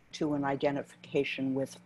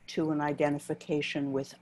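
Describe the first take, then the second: No difference in how they are said.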